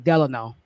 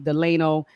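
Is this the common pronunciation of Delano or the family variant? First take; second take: family; common. First: It is the family's own pronunciation of the name. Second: It is the widely used pronunciation of the name. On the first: This is how the speaker's family says it. "but we say Delano" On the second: This is how other people say it. "some people say Delano"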